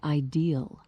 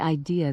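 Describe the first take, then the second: First: It is said in a West Virginian accent. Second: It is said in a standard accent.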